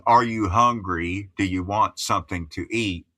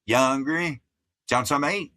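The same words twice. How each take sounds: First: Said in the usual way. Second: Higher-pitched, run-together Appalachian speech; Appalachian accent. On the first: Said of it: "Instead of saying". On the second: Shown as a demonstration. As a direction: slur the words together in hillbilly dialect. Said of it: "we'd say".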